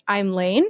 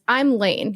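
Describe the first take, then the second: First: Rising tune on Lane, like asking; I'm Lane said as a question; question inflection. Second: Said in the usual way. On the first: Shown as a demonstration. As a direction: end I'm Lane on an upward lilt. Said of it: "You ask it". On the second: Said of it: "instead of introducing yourself as".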